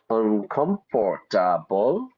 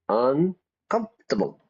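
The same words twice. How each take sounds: First: Every syllable of the word is fully pronounced. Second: The word is squeezed into three syllables. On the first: The speaker calls it wrong. "Not uncomfortable" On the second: The speaker calls it right. "Three syllables"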